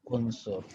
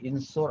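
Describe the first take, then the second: First: The word begins with a u vowel. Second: The word begins with an i vowel. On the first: The speaker calls it right. "tapi unsur" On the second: The speaker calls it wrong. "bukan insur"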